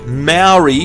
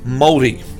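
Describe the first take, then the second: First: The word sounds like 'mao-ree'. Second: The word sounds close to 'mole-dee'. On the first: The speaker calls it wrong. "Maori is how most people say it" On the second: The speaker calls it right. "the correct way to pronounce the word Maori"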